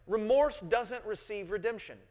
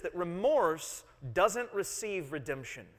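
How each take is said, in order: First: Remorse stressed and pitched higher on the repeat; emphatic repeat. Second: Remorse stressed, each word spaced out slowly; slow, weighty statement of the point; slow emphasis. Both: Real, not acted.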